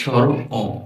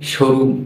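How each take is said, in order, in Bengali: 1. দুটি অংশ আলাদা শব্দ হিসেবে বলা হয়। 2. দুটি অংশ মিলে এক শব্দ হয়ে যায়। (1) "এর নাম হচ্ছে স্বর অ" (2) "আমরা অনেকে এটাকে সরু বলি, না, সরু না"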